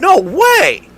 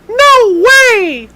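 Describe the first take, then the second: First: It is said in the speaker's normal voice. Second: It is said in a Shorzy impression voice.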